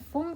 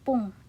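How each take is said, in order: First: The word begins with an f sound. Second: The word begins with a p sound. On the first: The speaker calls it wrong. "bukan fung" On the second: The speaker calls it right. "tapi pung"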